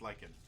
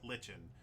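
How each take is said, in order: First: "lichen" said LIKE-en, k instead of ch; correct pronunciation. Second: "lichen" read as spelt, LITCH-en with ch; spelling pronunciation. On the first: Player explaining to listeners how it's pronounced, "lichen" as LIKE-en. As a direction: say "lichen" with a long i and hard k. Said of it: "which is pronounced lichen". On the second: Player explaining to listeners how it's spelt, "lichen" as LITCH-en. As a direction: say "lichen" like kitchen with an L. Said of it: "mushroom that's spelt lichen". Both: Shown as a demonstration.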